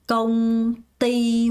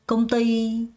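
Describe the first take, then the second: First: Both syllables get equal stress. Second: The second syllable is stressed, the first light. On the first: The speaker calls it wrong. "이렇게 발음하는 사람 없습니다" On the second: The speaker calls it right. "ty의 강세를 줍니다"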